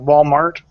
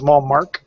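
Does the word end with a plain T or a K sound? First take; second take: plain T; K sound. First: The word ends in its usual T sound. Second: The word ends with an added K sound.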